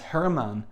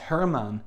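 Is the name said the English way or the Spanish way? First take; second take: Spanish; Spanish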